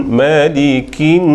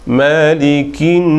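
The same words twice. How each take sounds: Both takes have the same delivery.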